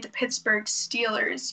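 Steelers has a long 'ee' vowel, as in steel. "So you wouldn't say the Pittsburgh Steelers"

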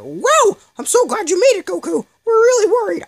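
It imitates Team Four Star's Krillin voice.

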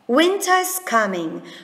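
The T in winter is clearly pronounced.

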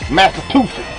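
It is said in a Southern accent.

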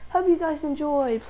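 It is said in a British accent.

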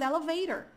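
The middle t is a quick tapped r-like sound. "americano falando elevator"

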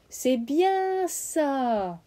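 The word 'bien' is stressed and drawn out. The speaker calls it right. "Avec cet accent mis sur le bien. Avec cet étirement"

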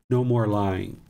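The voice sounds gentle and calm. The speaker is calmly talking it through. "I might have said in the previous times"

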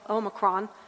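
The word is said the international way. "One is the international Omicron"

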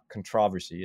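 It is said with the British pronunciation.

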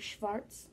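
It is said with a German accent.

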